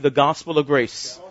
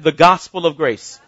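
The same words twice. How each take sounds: First: It is said plainly, without extra force. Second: It is said with authority and lively energy.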